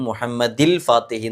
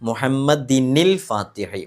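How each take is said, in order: First: The words are joined with 'il' and no n sound. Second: An n sound links the words as 'nil'. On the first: The speaker calls it wrong. "തെറ്റ് വരും" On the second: The speaker calls it right.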